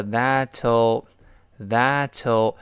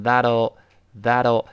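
First: "that'll" drawn out slowly with a crisp t, "that-toe"; unvoiced theoretical t. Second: "that'll" with the t turned into a d, "thad-o"; voiced t. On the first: Teacher showing the theoretical form, slow crisp t. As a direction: keep a clean t in "that'll", very slow. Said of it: "理论上是that'll". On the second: Teacher showing the fast-speech form, voiced t. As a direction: soften the t of "that'll" into a linked d. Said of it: "这个它浊化了". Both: Shown as a demonstration.

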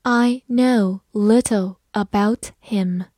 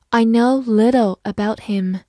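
First: Slow, careful reading for learners; slow classroom read-aloud; slowly. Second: Said in the usual way. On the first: Shown as a demonstration. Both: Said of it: "好，慢慢来读。".

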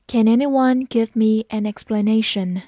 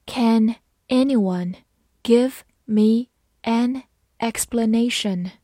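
First: Said in the usual way. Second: Word by word, with pauses between words; slow reading. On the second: Shown as a demonstration. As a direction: read it out slowly for learners. (慢慢逐词朗读) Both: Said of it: "好，慢慢来读".

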